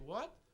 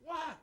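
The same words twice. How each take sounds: First: It sounds like a puzzled, questioning request. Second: It sounds like a short, irritated reply. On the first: The listener did not hear what was said. "Like I didn't hear what you say" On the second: The listener is busy and does not want interruption. "Or I'm busy and you try to talk and say"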